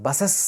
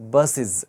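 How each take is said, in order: First: The plural ending is voiceless, like is. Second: The plural ending is voiced, like iz. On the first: The speaker calls it wrong. "బసెస్ కాదు, wrong అది" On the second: The speaker calls it right. "జ్ sound వస్తుంది"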